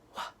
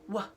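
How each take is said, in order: First: It is said softly, with breath blowing out. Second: It is said plainly, without extra breath. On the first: "It's a little bit softer" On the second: "a regular wah, wah, wah from a W"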